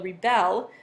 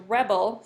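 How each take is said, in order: First: The stress is on the second syllable. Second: The stress is on the first syllable. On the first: It is an action meaning to resist. "the stress is on the second syllable" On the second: It is a noun-like word describing the soldier. "the emphasis is at the beginning of the word rebel"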